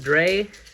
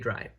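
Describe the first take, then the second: First: The vowel sounds like 'ay'. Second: The vowel sounds like 'eye'. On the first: This is how some other players say it. "I've heard people call it Dre" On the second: This is how it is said in German. "that's how it's pronounced in German"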